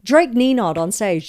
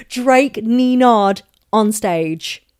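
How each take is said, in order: First: Said in the usual way. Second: Slow, loud, stretched-out words; drawn-out, punched delivery; emphatic repeat. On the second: Real, not acted. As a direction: spell out the pun loudly and slowly. Repeats pun slowly for effect.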